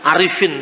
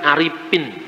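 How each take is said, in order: First: The middle consonant is an f sound. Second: The middle consonant is a p sound. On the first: "tidak bisa ngomong misalnya Arifin" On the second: "Orang Sunda sulit untuk mengucapkan huruf F"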